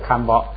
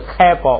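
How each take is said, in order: First: The first syllable sounds like kan, ending in n. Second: The first syllable sounds like kai, with no n. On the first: The speaker calls it wrong. "不是刊包" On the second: The speaker calls it right. "这是开包"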